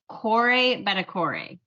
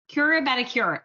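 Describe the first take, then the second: First: The first syllable sounds like 'core'. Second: The first syllable sounds like 'cura'. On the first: The speaker calls it right. "Say like apple core" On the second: The speaker calls it wrong. "I'm going to say it wrong again"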